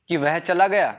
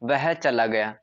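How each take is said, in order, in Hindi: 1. यह प्रश्नवाचक लहजे में कहा गया है। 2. यह सपाट, सामान्य कथन की तरह कहा गया है। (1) "अपन ऐसे बोले क्वेश्चन वाचक, क्वेश्चन मार्क लगा करके" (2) "यह एक सामान्य सा वाक्य है, नॉर्मल सेंटेंस है"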